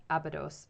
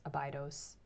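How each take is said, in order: First: Abydos as AB-ih-doss; short-i pronunciation. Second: Abydos as uh-BYE-doss; long-i pronunciation. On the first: Streamer choosing the mission, Abydos said AB-ih-doss. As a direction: stress the first syllable of Abydos, short i. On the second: Streamer settling on a pronunciation, Abydos said uh-BYE-doss. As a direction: stress the middle of Abydos, rhyming it with bye. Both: Shown as a demonstration. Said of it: "That's wh-, how I say it".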